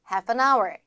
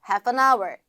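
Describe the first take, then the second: No difference in how they are said.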